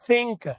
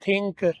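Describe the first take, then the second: First: The th is soft, with air through the teeth. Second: The th is a hard stop with no air. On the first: The speaker calls it right. "जुबान के ऊपर मैंने दांत रख लिए और पीछे से मैं हवा देता हूं" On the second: The speaker calls it wrong. "जुबान तालु के साथ लग रही है, ये नहीं करना आपने"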